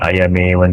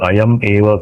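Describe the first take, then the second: First: The words run together without any break. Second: The words are split with a break between. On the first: The speaker calls it right. "इसलिए एक साथ उच्चारण करेंगे।" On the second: The speaker calls it wrong. "अयम एव करते हैं ना, तो कान में सुनने के लिए ग- अच्छा नहीं लगता।"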